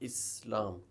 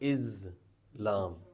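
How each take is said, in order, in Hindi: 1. यह शब्द अरबी के तरीके से बोला जाता है। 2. यह शब्द अंग्रेज़ी के तरीके से बोला जाता है, z के साथ। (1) "in Arabic we pronounce" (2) "in English we pronounce Islam, z sound है"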